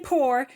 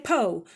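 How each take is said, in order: First: It is said in a general, non-Southern accent. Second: It is said in a Southern US accent. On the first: The speaker calls it wrong. "you don't say poor" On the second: The speaker calls it right. "if you're from the South or you've ever been to the South, you say po"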